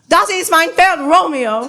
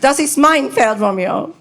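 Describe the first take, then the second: First: The stress falls on the word Romeo. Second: The stress falls on the word mein.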